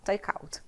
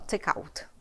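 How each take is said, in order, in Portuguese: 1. As duas palavras são ditas juntas. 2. As duas palavras são ditas juntas.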